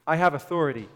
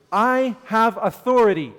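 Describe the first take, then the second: First: Said in the usual way. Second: Louder, higher, proclaiming authority; emphatic declaration. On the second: Acted. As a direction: announce it with full conviction. Preacher voicing Jesus' claim.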